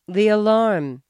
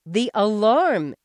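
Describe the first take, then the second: First: Said in the usual way. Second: Loud, slow, fed-up shout; wife finally shouting the answer. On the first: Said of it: "she said". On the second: A narrator's reading. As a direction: shout it back at him. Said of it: "she shouted".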